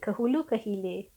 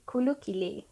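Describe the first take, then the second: First: Each word starts with a full 'ke' syllable. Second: The 'ke' syllables are dropped from both words.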